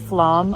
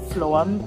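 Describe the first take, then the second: First: The vowel sounds like the 'a' in 'cat'. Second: The vowel sounds like the 'o' in 'foam'. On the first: The speaker calls it wrong. "we're pronouncing it Flam" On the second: The speaker calls it right. "I assume it's more like Floam"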